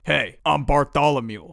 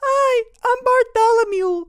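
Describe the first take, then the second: First: It is said in a grown-up voice. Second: It is said in a squeaky child's voice.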